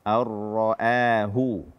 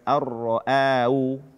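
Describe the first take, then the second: First: The h sound is clearly pronounced. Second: The h sound is dropped. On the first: The speaker calls it right. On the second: The speaker calls it wrong.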